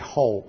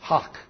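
First: It ends on a long vowel with no K. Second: It has a short O and ends in K. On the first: "I say ho" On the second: "H-O-K is the pronunciation with a short O"

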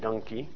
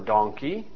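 First: It is said in a Pennsylvania accent. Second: It is said in a standard accent.

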